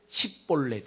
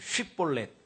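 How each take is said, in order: First: The word begins with an s sound. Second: The word begins with an sh sound. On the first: The speaker calls it wrong. "이 발음이 안 되고 십볼렛 이렇게 되는 거예요" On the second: The speaker calls it right. "다 같이 따라해보세요"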